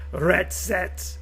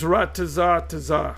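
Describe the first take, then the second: First: The word is short and ends in 'ts'. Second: The word is long and ends in 'ah'. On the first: The speaker calls it wrong. "That don't even sound right" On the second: The speaker calls it right. "It's ratazah tazah"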